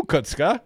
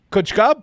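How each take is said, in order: First: Said in the usual way. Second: Kutzka said higher and louder, calling out; stressed name. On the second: Real, not acted. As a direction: hit Kutzka with a raised call.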